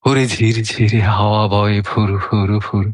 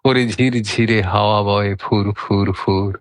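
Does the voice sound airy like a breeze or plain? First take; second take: airy; plain. First: It is recited with an airy, breeze-like breath. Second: It is recited plainly, without an airy breath. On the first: The speaker calls it right. "এবার কিন্তু আবৃত্তির সঙ্গে হাওয়াটাও হলো।" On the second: The speaker calls it wrong. "আমি যে এখন শোনালাম তার মধ্যে কি হাওয়াটা অনুভব করা গেল?"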